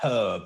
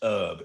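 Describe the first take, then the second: First: The word is said the British way. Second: The word is said a non-British way. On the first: The speaker calls it right. "British English says herb" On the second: The speaker calls it wrong. "not herb"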